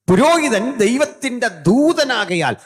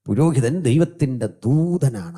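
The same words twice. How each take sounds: First: High, loud and slow, preached at full force; thundering pulpit cry on പുരോഹിതൻ; booming proclamation. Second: Said in the usual way. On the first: Shown as a demonstration. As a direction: hurl the line out to the back row. Preacher proclaims then restates plainly.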